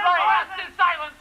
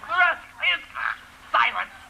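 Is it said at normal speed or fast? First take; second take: fast; normal. First: It is said very fast. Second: It is said at normal speed.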